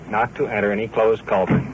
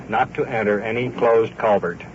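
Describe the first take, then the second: No difference in how they are said.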